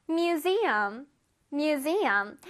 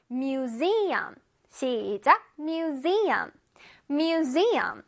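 First: Museum, drawn out; slow word drill. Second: Museum with a sharp buzzing z in the middle; clear z sound. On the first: Teacher modeling museum for children. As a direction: say museum slowly for the class. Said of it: "One more time". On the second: Teacher stressing the z for kids. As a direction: lean on the z in Museum. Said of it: "S 이 부분을 뚜렷하게". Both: Shown as a demonstration.

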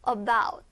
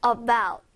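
First: About with weight on the second syllable, bout; stress on about. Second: About again, bout pressed and falling; stress on about. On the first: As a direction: hit the end of About. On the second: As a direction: land firmly on bout in About. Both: Shown as a demonstration. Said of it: "about 한번 할게요".

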